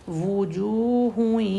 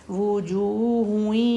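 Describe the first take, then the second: Both takes have the same delivery.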